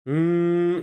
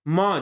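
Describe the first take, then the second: First: The m is a closed-lip nasal hum without a vowel. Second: The m is said as a full syllable with a vowel. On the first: The speaker calls it right. "ये उच्चारण होता है" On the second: The speaker calls it wrong. "ये उच्चारण नहीं होता है"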